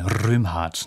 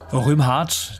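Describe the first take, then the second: First: The R is rolled with the tongue tip. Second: The R is not rolled with the tongue.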